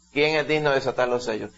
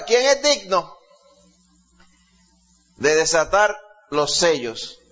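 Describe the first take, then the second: First: Said in the usual way. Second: Angel's shouted proclamation. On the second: Retold or imitated. Preacher voices the strong angel crying out to all, shouted proclamation. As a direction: call it out like a herald. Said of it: "este ángel gritaba esto y preguntaba".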